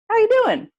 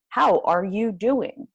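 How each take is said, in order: First: It is said fast, with sounds run together. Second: Each word is said fully and carefully.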